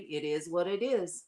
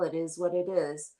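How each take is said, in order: First: It sounds sassy and defiant. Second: It sounds resigned and accepting. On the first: The speaker is unapologetic and will not change. "it means something totally different with the little head" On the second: The situation cannot be controlled, so it is accepted. "we're just like accepting of it"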